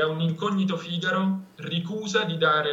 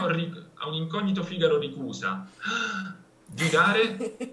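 First: There is a short pause after Figaro. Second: There is a break between ricusa and di dare. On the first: Figaro closes the relative clause before the main verb. The speaker calls it right. "Si può fare così" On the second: The verb is split from its complement. The speaker calls it wrong. "Questo no, questo è sbagliato"

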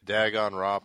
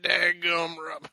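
First: It is said in the speaker's ordinary accent. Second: It is said in a heavy country accent.

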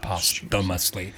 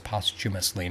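First: The middle consonant sounds like th. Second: The middle consonant sounds like ch. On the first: The speaker calls it wrong. "not posthumously" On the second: The speaker calls it right. "They do a CH, so it's posthumously"

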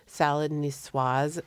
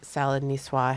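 First: The final S sound is pronounced. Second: The final S sound is left silent. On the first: The speaker calls it right. "You say the S" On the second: The speaker calls it wrong. "when people call salad niçoise"

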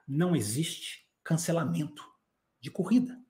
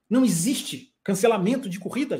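First: It is said very slowly. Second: It is said at normal speed.

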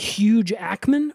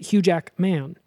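First: The j sound joins the first word, Huge. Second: The j sound starts the second word, Jackman. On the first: "is his first name Huge" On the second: "or is it Hugh Jack?"

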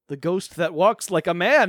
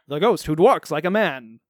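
First: It is said in a plain, ordinary voice. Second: It is said in a dramatic old-serial announcer voice.

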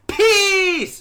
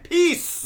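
First: It is said very loudly. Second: It is said at normal volume.

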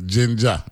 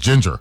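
First: The word ends with an 'ah' sound. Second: The word ends with an 'er' sound. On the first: This is how the speaker's community says it. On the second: This is the standard, conventional pronunciation. "the formal and conventional word is ginger"

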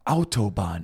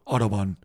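First: It starts with an 'ow' vowel and a T sound. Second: It starts with an 'aw' vowel and a D sound. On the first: The speaker calls it right. "you have to get an ow sound" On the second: The speaker calls it wrong. "Like a lot of people say with like a D, like an auto"

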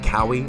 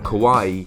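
First: The name rhymes with Maui. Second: The name does not rhyme with Maui. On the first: The speaker calls it wrong. "keep wanting to say Kaui, like Maui" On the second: The speaker calls it right. "I think I said that right"

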